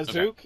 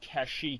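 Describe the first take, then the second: First: The name is said as Kazook. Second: The name is said as Kashyyyk. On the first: The speaker calls it wrong. "in the uh, holiday special is wrong" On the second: The speaker calls it right. "that's the official pronunciation"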